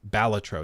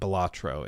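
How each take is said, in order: First: The stress is on the first syllable. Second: The stress is on a later syllable. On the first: The speaker calls it right. "you put the emphasis on the first syllable" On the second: The speaker calls it wrong.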